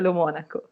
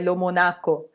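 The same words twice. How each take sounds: First: The stress falls on the syllable mo. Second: The stress falls on the syllable na. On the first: This is how the name is actually said. The speaker calls it right. "mas de fato é Lomonaco" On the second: This is how Brazilians commonly assume it is said. The speaker calls it wrong. "todo brasileiro pensa que é Lomonaco, pois não tem o acento"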